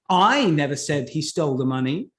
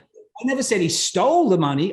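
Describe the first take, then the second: First: The word "I" carries the strongest stress. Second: The word "stole" carries the strongest stress. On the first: Someone else said it. "who said that he stole the money then?" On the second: He took it some other way. "Okay, he borrowed it"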